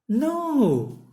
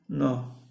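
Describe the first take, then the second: First: The tone sounds warm and welcoming. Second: The tone sounds cold and unwelcoming. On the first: The person is happy for you to sit. "So you're very, very welcoming" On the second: The person does not want you to sit. "the tone changes the meaning"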